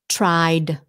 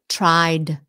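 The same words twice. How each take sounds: Both takes have the same delivery.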